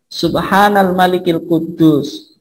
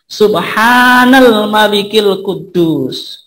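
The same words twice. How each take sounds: First: The phrase is said at normal length and volume. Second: The phrase is drawn out long and loud.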